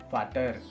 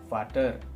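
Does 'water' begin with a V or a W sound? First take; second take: V sound; V sound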